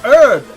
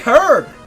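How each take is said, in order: First: The word begins with a silent h. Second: The word begins with a pronounced h sound. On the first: The speaker calls it wrong. "why are you saying herb?" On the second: The speaker calls it right. "just say the H. Just say herb"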